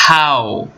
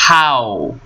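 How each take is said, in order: Both takes have the same delivery.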